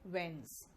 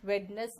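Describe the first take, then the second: First: वेंस as one syllable, WENZ; low, soft वेंस with silent d; correct pronunciation. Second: वेडनेस with the d sounded, WED-nes; wrong pronunciation. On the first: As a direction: model वेंस without any d. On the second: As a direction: say वेडनेस in two syllables with a clear d. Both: Shown as a demonstration. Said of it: "वेडनेस नहीं".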